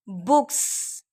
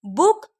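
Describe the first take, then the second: First: बुक्स with a crisp s ending; बुक्स, final s marked. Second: Said in the usual way. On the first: Shown as a demonstration. (बुक्स का स साफ़) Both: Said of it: "plural के sounds को".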